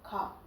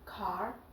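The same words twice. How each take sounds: First: The final r sound is dropped. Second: The final r sound is heard. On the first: "but in British car" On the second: "In America we say the pronunciation is car"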